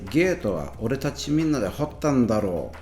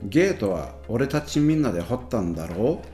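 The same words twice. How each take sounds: First: The pitch falls at the end. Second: The pitch rises at the end. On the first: "the second one has a falling intonation" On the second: "The first one has a rising intonation"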